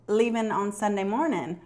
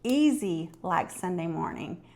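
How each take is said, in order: First: Wrong lyric. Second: "easy like Sunday morning" spoken slowly, each word laid out; correct lyric. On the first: Retold or imitated. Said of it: "And he said". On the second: Shown as a demonstration. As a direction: set him straight, slow and clear. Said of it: "No, that's not the lyric".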